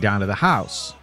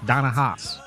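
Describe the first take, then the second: First: Vowels glide and each word is said fully. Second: Vowels are flat and the words run together.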